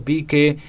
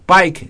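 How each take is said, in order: First: Pique said as PEE-keh; Spanish-style reading. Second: Pike said with an "eye" vowel; English-style reading. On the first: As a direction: say Pique with an "ee" vowel. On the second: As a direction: say Pike to rhyme with like. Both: Shown as a demonstration. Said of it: "no sé si está bien mencionado el apellido".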